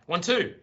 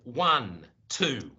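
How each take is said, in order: First: The count is quick with no gap. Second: The count is slow with a gap.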